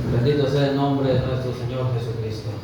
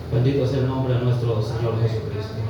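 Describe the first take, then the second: Both takes have the same delivery.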